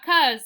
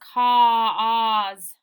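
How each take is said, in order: First: The vowel is a short 'uh' sound. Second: The vowel is a long 'aw' sound. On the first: The speaker calls it wrong. "it's not cuz" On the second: The speaker calls it right. "it's cause"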